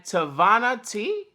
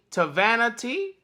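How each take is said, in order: First: "Tavana" with a broad "ah" in the middle; alternative pronunciation. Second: "Tavana" with a short "a" as in van; alternative pronunciation. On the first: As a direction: say "Tavana" as tuh-VAH-nuh. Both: Real, not acted. Tries two pronunciations of name.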